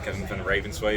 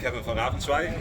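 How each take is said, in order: First: The name is pronounced the English way. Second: The name is pronounced the Dutch way.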